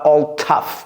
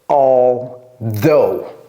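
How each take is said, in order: First: The word ends sounding like 'tough'. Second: The word ends sounding like 'though'. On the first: The speaker calls it wrong. "c'est pas all tough" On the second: The speaker calls it right. "c'est although"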